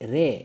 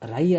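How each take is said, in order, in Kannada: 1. ಸ್ವರ ದೀರ್ಘ 'e', 'ray' ತರಹ. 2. ಸ್ವರ 'ai' ಡಿಫ್ಥಾಂಗ್, 'rye' ತರಹ. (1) "ರೇ ರೇ ರೇಜೋಕೋ" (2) "ರೈ ಅಲ್ಲ"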